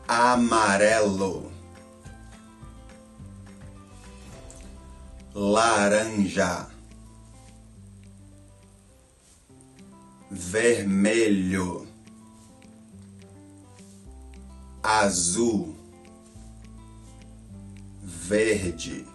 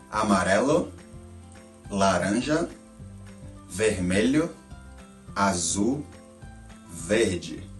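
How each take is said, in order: First: The colors are said slowly with long gaps. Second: The colors are said a little faster.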